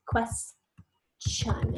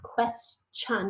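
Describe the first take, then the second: First: Whispered word. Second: Showing the chun sound in question; chun ending. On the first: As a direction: Question whispered with no voice. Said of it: "I hear that short E". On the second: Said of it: "makes almost this sound". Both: Shown as a demonstration.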